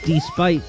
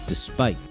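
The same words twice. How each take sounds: First: The stress is on the first syllable. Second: The stress is on the second syllable. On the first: The speaker calls it wrong. "You put the emphasis on the first syllable instead of the second" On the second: The speaker calls it right. "no, the pronunciation is despite"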